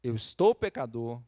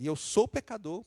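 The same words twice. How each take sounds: First: "estou" leaned on as a passing state; stress on estou. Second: "sou" pushed higher as his nature; stress on sou. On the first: David confessing his sin, stressing estou. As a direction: weigh the word "estou". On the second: David confessing his nature, stressing sou. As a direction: press hard on "sou". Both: Shown as a demonstration. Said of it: "Ele usa os dois".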